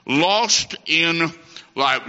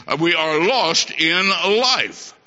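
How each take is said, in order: First: Lost in life repeated slow with weight on Lost; emphatic repeat. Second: Said in the usual way. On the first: Shown as a demonstration. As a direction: drive home Lost in life once more.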